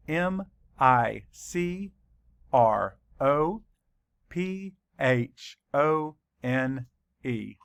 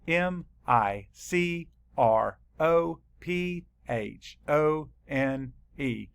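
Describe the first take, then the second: No difference in how they are said.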